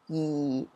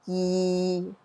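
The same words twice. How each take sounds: First: It is said with Cantonese tone four. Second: It is said with Cantonese tone six.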